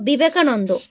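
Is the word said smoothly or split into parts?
smoothly. The word is said smoothly in one go.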